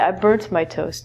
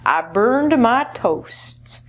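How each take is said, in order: First: The verb ends with a T sound. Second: The verb ends with a D sound. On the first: This is the common British form. "Where in the U K, they'd say" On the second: This is the common American form. "most commonly, Americans will say burned"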